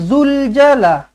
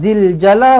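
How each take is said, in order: First: The vowel after z is a u sound. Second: The vowel after z is an i sound. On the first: The speaker calls it wrong. "bukan zul jala" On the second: The speaker calls it right.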